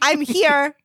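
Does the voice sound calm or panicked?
calm. The voice sounds calm and ordinary. "I didn't even say it like"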